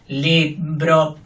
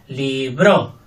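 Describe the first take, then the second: First: Both syllables are equal, robotic and flat. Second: The stress is on the second syllable. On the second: "Fuerte la segunda"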